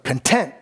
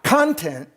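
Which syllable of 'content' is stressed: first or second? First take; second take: second; first. First: The stress is on the second syllable. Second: The stress is on the first syllable. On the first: The speaker calls it right. "I went out of my way to put the accent on the tent" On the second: The speaker calls it wrong. "Not content"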